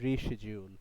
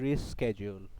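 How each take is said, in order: First: The word is said with an 'sh' sound. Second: The word is said with an 'sk' sound. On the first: "তবে শিডিউল উচ্চারণটা ভুল" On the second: "দুইটা উচ্চারণ আছে, স্কেডিউল এবং শিডিউল"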